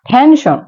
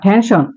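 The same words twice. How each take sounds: First: The word is said at a slower pace. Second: The word is said at a faster pace.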